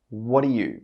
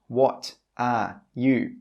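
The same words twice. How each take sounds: First: The three words run together as one sound. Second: Each word is said separately and clearly. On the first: The speaker calls it right. "He joins those three words together" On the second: The speaker calls it wrong. "the speaker does not say"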